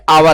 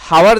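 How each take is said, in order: First: It begins directly with a vowel sound. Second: It begins with an audible h sound. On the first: The speaker calls it right. "यह आवर है, क्योंकि यहाँ पे एच silent है" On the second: The speaker calls it wrong. "यह हावर नहीं है"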